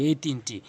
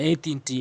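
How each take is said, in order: The two takes are said the same way.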